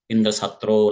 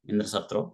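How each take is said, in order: First: The phrase is pronounced in a longer way. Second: The phrase is pronounced in a shorter way. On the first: A person who will be killed by Indra. The speaker calls it wrong. "he has pronounced in a longer manner" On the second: A person who will kill Indra. The speaker calls it right. "he has to pronounce in a shorter way"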